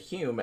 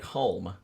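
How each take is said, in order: First: The name is said without any L sound. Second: The name is said with an L sound. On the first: "as though it didn't have an L in it" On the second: "to me that looks like Hulme"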